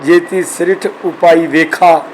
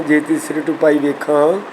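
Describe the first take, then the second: First: Slow reading, "ਵੇਖਾ" ending in open oral aa; wrong unnasalised ending. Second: "ਵੇਖਾਂ" ending on a nasalised aan; nasal ending. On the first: Teacher demonstrates the faulty reading slowly, "ਵੇਖਾ" without nasal. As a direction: drop the nasal from "ਵੇਖਾ", spacing the verse slowly. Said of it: "ਜੇ ਵੇਖਾ ਪੜ੍ਹੋਗੇ". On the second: Teacher quotes the verse correctly, "ਵੇਖਾਂ" nasal at the end. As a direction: nasalise the final vowel of "ਵੇਖਾਂ". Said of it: "ਵੇਖਾਂ ਦੇ ਕੰਨੇ ਉੱਪਰ ਵੀ ਬਿੰਦੀ". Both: Shown as a demonstration.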